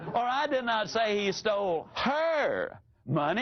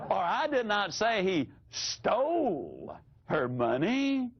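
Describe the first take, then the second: First: The stress is on the word her. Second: The stress is on the word stole.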